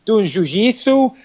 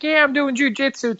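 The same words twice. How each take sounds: First: Put-on Brazilian-accented "jujitsu", zh at both starts; mock Brazilian accent. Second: Put-on much higher, chirpy valley-girl voice; mock a peppy American girl, pitched way up. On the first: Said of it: "hardcore Brazilian accent".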